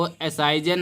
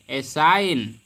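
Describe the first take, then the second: First: असाइजन with the G voiced as J; wrong reading. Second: Said in the usual way. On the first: Shown as a demonstration. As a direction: add a "jan" syllable at the end of असाइजन. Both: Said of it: "इसको असाइजन नहीं पढ़ेंगे".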